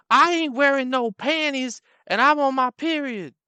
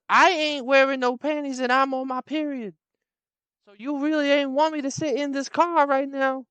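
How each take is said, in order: First: High, loud brash woman. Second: High, loud brash woman repeating. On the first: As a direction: blurt it out shamelessly. Same woman voiced. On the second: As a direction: say it again, even bolder. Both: Retold or imitated.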